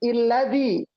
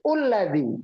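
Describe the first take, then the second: First: The word begins with an 'i' vowel. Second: The word begins with a 'u' vowel. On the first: The word before ends in an 'i' sound. "Kalau kata sebelumnya bunyinya i" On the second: The word before ends in a 'u' sound. "Kalau kata sebelumnya bunyi u"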